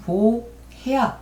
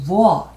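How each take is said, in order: First: The h in the middle is pronounced. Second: The h in the middle is silent. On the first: The speaker calls it right. "이거는 woher 이렇게 하셔야지" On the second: The speaker calls it wrong. "wo 이러시면 안 돼요"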